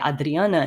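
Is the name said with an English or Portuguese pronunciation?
Portuguese. The name is said with a Portuguese pronunciation.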